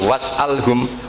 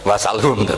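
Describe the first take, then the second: First: A glottal stop comes before the 'al' syllable. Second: No glottal stop comes before the 'al' syllable. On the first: This is one traditional reading of the verse. "Tapi was'alhum" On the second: This is another traditional reading of the verse. "Ibnu Katsir semuanya dibaca sal"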